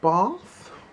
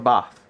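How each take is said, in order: First: The word is said the way his partner says it. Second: The word is said in his own usual accent. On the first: "I don't know why I still say it like that when she's not in the room" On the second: "It's a bath"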